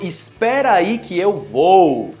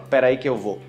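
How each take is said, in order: First: The first word is said in full. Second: The first word is shortened and merged. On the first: "é a mesma coisa de espera aí" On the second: "quando você tá falando no Brasil, você fala"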